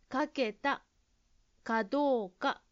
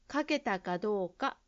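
First: The phrase is broken up with pauses. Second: The phrase is said smoothly without stopping. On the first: The speaker calls it wrong. "ジムさんは、鍵をかけたかどうかと言っていましたから" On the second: The speaker calls it right. "止まらないで言うようにしましょう"

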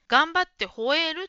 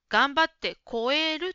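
First: The last word begins with ho. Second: The last word begins with ko. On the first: The speaker calls it right. "頑張って吠えるというところですが" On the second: The speaker calls it wrong. "言っているように聞こえました。こうではなくて、ほうですね"

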